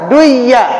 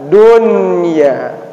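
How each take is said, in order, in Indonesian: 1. Bunyi n melebur hilang. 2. Bunyi n terdengar jelas. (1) "seharusnya dibaca duya" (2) "wajib dibaca jelas"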